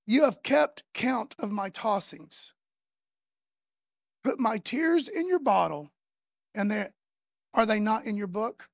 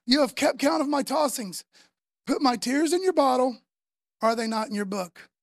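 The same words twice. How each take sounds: First: Slow reading. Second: Louder reading. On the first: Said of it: "Now listen to what King David says". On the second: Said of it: "Psalm fifty-six, verse eight". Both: Shown as a demonstration.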